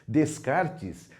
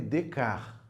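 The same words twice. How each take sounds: First: The final consonant sounds are pronounced. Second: The final consonant sounds are silent. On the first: The speaker calls it wrong. "não é nada disso" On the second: The speaker calls it right. "Não se pronuncia a parte final aí no francês"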